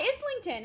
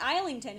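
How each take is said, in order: First: The first syllable sounds like 'iz'. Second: The first syllable sounds like 'eye'. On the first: This is how locals say it. "And she's like" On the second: This is how the spelling suggests it. "why not Islington?"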